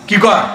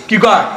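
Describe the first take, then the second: No difference in how they are said.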